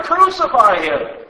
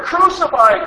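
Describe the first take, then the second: First: Loud, slow yell falling at the end; shouting louder. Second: High, loud yell rising at the end; shouting louder. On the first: Crowd insisting to Pilate, slow falling shout. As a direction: pound the words down slowly. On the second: Crowd pushing Pilate harder, high rising yell. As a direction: scream it up at him. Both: Acted. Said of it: "kept shouting even louder".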